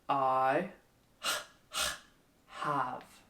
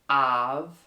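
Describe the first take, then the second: First: The h sound is breathed out clearly. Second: The h sound at the start is dropped. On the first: The speaker calls it right. "suck in a bit" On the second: The speaker calls it wrong. "So it's not"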